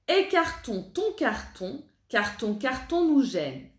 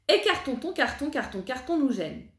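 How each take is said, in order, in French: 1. La phrase est dite lentement. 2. La phrase est dite rapidement. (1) "on la répète lentement" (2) "On essaye un petit peu plus vite"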